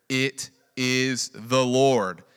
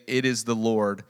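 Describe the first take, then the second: First: Very slow, loud, drawn out; drawn-out reverent line. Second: Said in the usual way. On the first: Shown as a demonstration. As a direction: let each word of the Lord land slowly.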